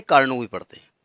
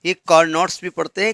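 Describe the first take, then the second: First: कार्नो said with no final t, ending on the o; the French way, कार्नो, t dropped; Carnot silent t. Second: कार्नोट्स said with a clear final t and s, as some people read it; the t-pronounced way, कार्नोट्स, ending in ts; Carnots with the t. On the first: Teacher shows students the silent-t reading कार्नो. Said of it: "कार्नो ना पढ़ना". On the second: Teacher shows students the other reading, कार्नोट्स with t sounded. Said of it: "कुछ लोग कार्नोट्स पढ़ते हैं". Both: Shown as a demonstration.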